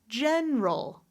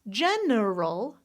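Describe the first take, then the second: First: It is said with two syllables. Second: It is said with three syllables.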